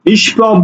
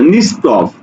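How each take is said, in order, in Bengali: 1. মাঝের ব্যঞ্জনটি 'sh' এর মতো শোনায়। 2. মাঝের ব্যঞ্জনটি 's' এর মতো শোনায়।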